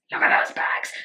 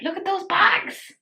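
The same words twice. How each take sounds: First: Whispered mock sob on Look at those bags; fake-cry Look at those bags. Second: Said in the usual way. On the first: Shown as a demonstration.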